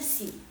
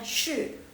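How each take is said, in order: First: The word begins with a plain s sound. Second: The word begins with an sh sound. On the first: The speaker calls it wrong. "kalau misalnya dalam bahasa Indonesia pasti bacanya si, bukan" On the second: The speaker calls it right. "Jadi jadi bacanya shi"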